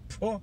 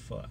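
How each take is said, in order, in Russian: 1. Гласная звучит как 'oh'. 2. Гласная звучит как 'ah'. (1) "Иногда говорят фо" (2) "Нет, это фа"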